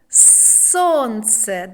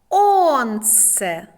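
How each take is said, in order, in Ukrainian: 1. Слово починається зі звуку S. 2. Слово починається без звуку S.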